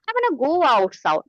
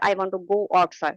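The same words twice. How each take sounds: First: It is said with lively, emotional intonation. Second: It is said flatly, without feeling. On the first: It sounds fluent, like a native speaker. The speaker calls it right. "This is something fluency" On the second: It is correct English but not fluent. The speaker calls it wrong. "you are sound like a robotics"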